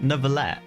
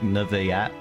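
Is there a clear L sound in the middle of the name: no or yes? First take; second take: yes; no. First: The name is said with a clear L sound. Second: The name is said without the L sound. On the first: "it's like Neverlet" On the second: "apparently the French don't pronounce the L's or something, so it's like Neverlet"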